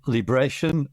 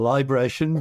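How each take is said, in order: First: The first syllable sounds like 'lee'. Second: The first syllable sounds like 'lie'. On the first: "depending on whether it's me mass or my mass" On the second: "depending on whether it's me mass or my mass"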